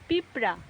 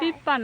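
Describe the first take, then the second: First: The middle has p followed by an r sound. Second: The middle is a doubled p with no r. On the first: The speaker calls it right. "না পিঁপড়া" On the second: The speaker calls it wrong. "পিপ্পা না"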